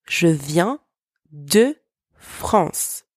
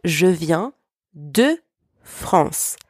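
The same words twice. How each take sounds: First: "Je viens de France" again, slow, "France" breathed out; French model repeated. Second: "Je viens de France" said slowly, "France" almost breathed out; slow French model sentence. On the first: Teacher repeats the model after the translation. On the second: Teacher models a French sentence for learners to repeat. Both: Shown as a demonstration. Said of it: "For example".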